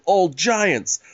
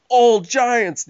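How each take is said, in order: First: Said in the usual way. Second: Put-on old giants repeated louder and higher; stressed repeat. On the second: Shown as a demonstration. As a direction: hit old giants again, harder. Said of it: "They're ordering old giants".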